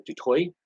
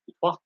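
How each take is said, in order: First: DUTOIT ending in an OY glide, like "toy"; alternative pronunciation. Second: DUTOIT ending in an open vowel, without the OY glide; French pronunciation. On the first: Offering the other way to say the surname, OY pronunciation. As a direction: say "Dutoit" as doo-TOY, final T silent. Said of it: "or you go Dutoit". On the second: Giving an example of a French-sounding surname, French pronunciation. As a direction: say "Dutoit" French-style, final T silent. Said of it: "French-sounding surnames like". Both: Shown as a demonstration.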